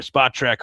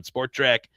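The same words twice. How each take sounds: First: "Spot Track", first word rhyming with hot; Spot without R. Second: "Sport Track", first word rhyming with fort. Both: Real, not acted. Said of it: "however you pronounce it".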